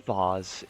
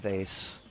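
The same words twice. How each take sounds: First: The word is said in a posh, fancy-sounding way. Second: The word is said in an ordinary, everyday way.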